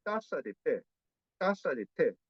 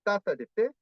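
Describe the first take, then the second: First: "taza de té" with English-like T's on the gum ridge; alveolar Korean-style T. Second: "taza de té" with T's on the teeth, higher pitch; Spanish dental T. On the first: Teacher modelling Korean habit, alveolar T's in "taza de té". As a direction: tap the T's of "taza de té" behind the teeth, as in tic-tac. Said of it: "como tic-tac en inglés". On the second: Teacher showing students what to avoid, dental T's in "taza de té". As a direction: say "taza de té" with tongue tip touching the teeth. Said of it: "no es como "dame taza de té". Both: Shown as a demonstration.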